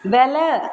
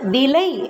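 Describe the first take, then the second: First: It uses the colloquial spoken pronunciation. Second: It uses the formal written pronunciation. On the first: "பேச்சு வழக்கு" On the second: "எழுத்து வழக்கு"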